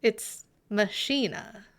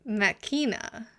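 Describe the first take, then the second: First: "machina" said slowly, ma-SHEE-na; pron demo. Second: "machina" said slowly as MACK-ee-na; "machina" with a hard k, stress on the first syllable; pron demo. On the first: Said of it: "In what context is that word?". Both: Shown as a demonstration.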